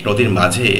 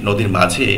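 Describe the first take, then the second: No difference in how they are said.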